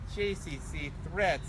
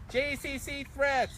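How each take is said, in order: First: It is read in the speaker's normal voice. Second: It is read in a put-on imitation voice.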